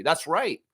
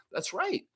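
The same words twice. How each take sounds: First: Said in the usual way. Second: That's right, lifted high and softer with a rise; playful repeat of That's right, high and soft; high playful echo. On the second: Real, not acted. Repeated catchphrase.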